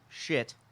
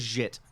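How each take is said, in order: First: The name is given a Chinese-style pronunciation. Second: The name is given a plain English pronunciation. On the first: "if you want to pronounce it Chinese" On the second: "We'll go with Jit"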